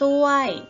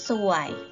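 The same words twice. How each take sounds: First: The syllable is said with tone two. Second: The syllable is said with tone one. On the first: "ไม้โทค่ะ" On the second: "เติมไม้เอกลงไปค่ะผันเป็นเสียงวรรณยุกต์เอก"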